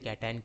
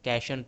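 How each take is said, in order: First: The middle consonant is t, then 'eye-on'. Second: The middle consonant is sh, like 'nation'. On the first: The speaker calls it right. "क्या बोला जाता है कैट, और ये आयन" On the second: The speaker calls it wrong. "कैशन तो नहीं होगा"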